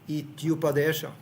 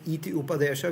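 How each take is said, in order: First: The two vowels are blended into one syllable. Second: The two vowels are kept separate, adding a syllable. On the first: The speaker calls it right. "we're asked to blend this together" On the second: The speaker calls it wrong. "instead of saying"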